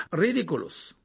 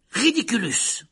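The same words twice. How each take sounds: First: Casual, unraised spell; almost nonchalant. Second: High, raised spell cry; shouted spell. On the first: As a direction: toss the incantation off lightly. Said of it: "d'un ton presque nonchalant". (ton presque nonchalant) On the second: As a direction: cry out the incantation. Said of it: "cria-t-il". (incantation criée) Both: A narrator's reading.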